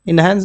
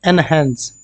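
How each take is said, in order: First: The word begins with an 'in' sound. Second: The word begins with an 'en' sound. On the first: The speaker calls it wrong. "इनहेंस नहीं" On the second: The speaker calls it right.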